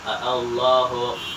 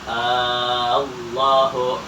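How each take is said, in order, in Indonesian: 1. Hamzah dilunakkan di antara hamzah dan alif. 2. Hamzah diganti dengan vokal panjang. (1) "boleh dibaca tashil" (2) "boleh dibaca ibdal"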